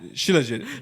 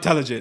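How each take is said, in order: First: The word begins with a 'sh' sound. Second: The word begins with a 't' sound. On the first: The speaker calls it right. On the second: The speaker calls it wrong. "Not Talajit"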